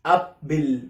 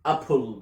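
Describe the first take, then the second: First: "apple" said as "ab-bil"; mis-say "apple" with b and a short i; wrong pronunciation demo. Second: "apple" said as "ap-pol", lower; added O. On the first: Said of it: "ما قلتش apple". (نطق "apple" غلط: "أبِل") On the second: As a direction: model "apple" with an o before the l. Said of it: "بتحط O من عندك". (نطق "apple" صح: "أبول") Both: Shown as a demonstration.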